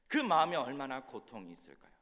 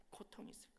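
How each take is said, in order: First: Full-voiced question with a falling end; emphatic rhetorical question. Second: Very soft, whispered question; hushed echo. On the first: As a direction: press the question on the congregation. Question asked, then echoed softly. (힘주어 묻고 끝을 내리는 설교 질문) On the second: Acted. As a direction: let the question fade into a whisper. Same question echoed softly. (속삭이듯 아주 작게 되묻는 말)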